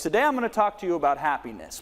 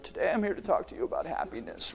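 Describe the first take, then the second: First: Said in the usual way. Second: Dull, softer, no energy in it; mock a bored speaker; flat and lifeless. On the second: Shown as a demonstration. Coach mocks a speaker delivering happiness flatly. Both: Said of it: "this is how they deliver it".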